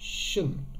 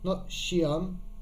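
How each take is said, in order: First: The suffix has one short schwa before the n. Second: The suffix has an extra vowel before the n. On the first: The speaker calls it right. "We've got that same sound" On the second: The speaker calls it wrong.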